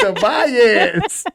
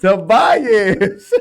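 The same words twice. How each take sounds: First: Laughing, name rising like a question. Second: Loud laugh through "Tobias", falling at the end; laughing name. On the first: Teasing a mother over her favorite son, laughing. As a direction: laugh out "Tobias" with the voice going up at the end. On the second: Insisting on her favorite son's name, laughing loud. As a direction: say "Tobias" laughing, landing it as the sure answer. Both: Real, not acted.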